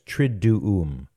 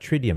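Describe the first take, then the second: First: The middle syllable sounds like 'doo'. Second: The middle syllable sounds like 'dee'. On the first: The speaker calls it right. "it's Triduum" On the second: The speaker calls it wrong. "It's not Tridium"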